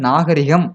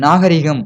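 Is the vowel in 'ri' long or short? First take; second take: short; long. First: The 'ri' syllable has a short vowel. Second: The 'ri' syllable has a long vowel. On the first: This is the standard written form. The speaker calls it right. "எழுத்து வழக்கு சொல்" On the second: This is a common incorrect form. The speaker calls it wrong. "ரீகம் வரக்கூடாது"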